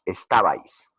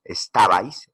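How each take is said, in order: First: Said in the usual way. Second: "estabais" slowed, leaning on "ta"; stress on TA. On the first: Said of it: "la sílaba que suena más". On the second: Shown as a demonstration. Teacher shows students the loudest syllable, "estabais" stressed on "ta". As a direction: punch the "ta" inside "estabais". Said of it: "es en este caso ta".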